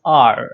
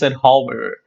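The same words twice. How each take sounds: First: "hour" said as "ar", no H; silent H. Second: "hour" as two beats, "howver", with an H; sounded H. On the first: Teacher correcting the wrong form, "hour" with silent H. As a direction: drop the H and say "hour" like "R". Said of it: "It's pronounced". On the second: Teacher rejecting a wrong form, "hour" with the H pronounced. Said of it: "it is not pronounced". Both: Shown as a demonstration.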